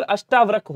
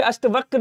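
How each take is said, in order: First: अष्टावक्र with long aa after t; correct long vowel. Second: अष्टवक्र with short a after t; wrong short vowel. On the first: Teacher correcting students, long "taa" in अष्टावक्र. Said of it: "होता है". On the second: Teacher reading out the error, short middle in अष्टवक्र. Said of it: "यहाँ पे अष्टवक्र लिखा है". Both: Shown as a demonstration.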